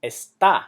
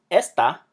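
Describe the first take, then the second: First: "está" as es-TA; "está" with weight at the end; stress on last syllable. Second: "esta" as ES-ta; contrasting "esta", light ending; stress on first syllable. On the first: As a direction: lean on the -tá of "está". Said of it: "It's pronounced". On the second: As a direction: hit the es of "esta". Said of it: "it's not pronounced esta". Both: Shown as a demonstration.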